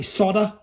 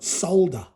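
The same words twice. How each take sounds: First: It is said the American way. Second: It is said the Australian way.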